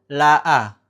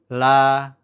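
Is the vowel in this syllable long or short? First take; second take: short; long. First: The vowel is cut short, one beat. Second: The vowel is held long, two beats. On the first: "maka dia dibacanya pendek" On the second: "la panjang biasa, la gitu ya, dua ketukan"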